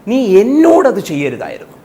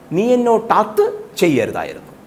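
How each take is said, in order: First: The stress is on എന്നോട്. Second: The stress is on അത്.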